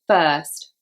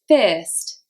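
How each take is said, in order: First: The vowel is a flat er sound. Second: The vowel is an ear-like sound. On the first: "this would be with the er sound" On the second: "In Liverpool, this would be said"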